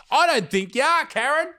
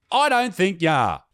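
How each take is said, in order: First: High, sarcastic sing-song, rising at the end; mocking disbelief. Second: Said in the usual way. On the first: Real, not acted. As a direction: scoff at her claim, pitched way up. Mocking a commenter's claim.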